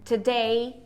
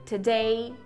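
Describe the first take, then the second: No difference in how they are said.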